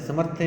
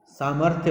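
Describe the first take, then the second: First: समर्थ्य with a short first a; wrong pronunciation. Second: सामर्थ्य with a long first aa; correct pronunciation. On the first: Teacher rejects the common mistake, mispronounced. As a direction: say समर्थ्य as "samarthe". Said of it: "समर्थ्य नहीं होता". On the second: Teacher gives children the right form, correctly pronounced. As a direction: say सामर्थ्य as "saamarthya". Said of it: "सामर्थ्य होता है". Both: Shown as a demonstration.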